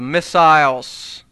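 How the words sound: The word is said with a British pronunciation.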